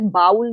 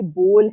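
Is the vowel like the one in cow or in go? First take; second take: cow; go. First: The vowel sounds like the one in cow. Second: The vowel sounds like the one in go. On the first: The speaker calls it wrong. "ये B ओ डब्ल्यू L बाउल नहीं है" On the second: The speaker calls it right. "ये बोल है"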